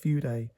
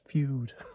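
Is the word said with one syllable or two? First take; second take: two; one. First: The word sounds like two syllables, 'foo-deh'. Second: The word sounds like one syllable, 'fyood'. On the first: This is the pronunciation now believed. The speaker calls it right. "but I think it's Fude" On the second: This is the pronunciation once believed. The speaker calls it wrong. "I used to think it was Feud"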